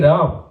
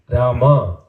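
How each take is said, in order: First: The name ends after one syllable, no final vowel. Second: The name has two syllables, with a final vowel. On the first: The speaker calls it wrong. "You say Ram" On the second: The speaker calls it right. "pronounce the complete name of Rama"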